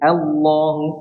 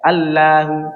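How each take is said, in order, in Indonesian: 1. Bunyi l tebal dan berat. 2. Bunyi l tipis dan ringan. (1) "lamnya tebal" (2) "enggak mungkin kita baca"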